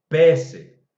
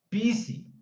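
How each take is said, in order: First: The vowel is wide open, like e. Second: The vowel is close, like i. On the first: "Tampoco va a ser el otro extremo" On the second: "nunca va a sonar Pisi"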